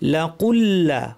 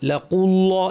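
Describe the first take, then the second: First: The 'l' sound is light and thin. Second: The 'l' sound is heavy and thick. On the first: The speaker calls it right. "লাম যেন ভারী না হয়" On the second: The speaker calls it wrong. "এরকম না"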